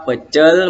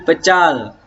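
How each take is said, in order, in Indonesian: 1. Vokal kedua dilafalkan sebagai 'e'. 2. Vokal kedua dilafalkan sebagai 'a'. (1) "Fonem E dilafalkan menjadi fonem A" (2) "Kesalahan pelafalan karena perubahan fonem"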